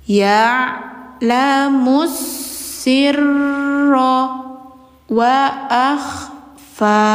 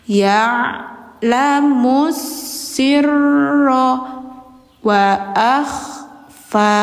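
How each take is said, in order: Both takes have the same delivery.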